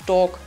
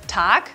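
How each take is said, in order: First: The vowel sounds like an o. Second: The vowel sounds like a clear a.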